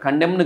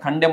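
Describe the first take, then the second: First: The final n is pronounced. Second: The final n is silent. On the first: The speaker calls it wrong. "కండెమ్న్ కాదు" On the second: The speaker calls it right. "ఎన్ silent... కండెమ్ అని పలకాలి"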